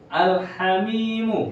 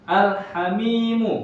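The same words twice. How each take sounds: The two takes are said the same way.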